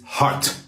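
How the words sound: The T is said hard and crisp. The speaker calls it right. "toughen up that T"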